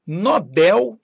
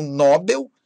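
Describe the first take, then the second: First: First "Nobel" stressed on BEL; stress on last syllable. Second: "Nobel" stressed on NO; stress on first syllable. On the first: Teacher giving the correct form, "Nobel" as no-BÉL. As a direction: hit the final BEL of "Nobel". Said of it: "Nobel e não Nobel". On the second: Teacher showing what not to say, "Nobel" as NÓ-bel. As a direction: wrongly hit NO in "Nobel". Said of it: "e não Nobel". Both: Shown as a demonstration.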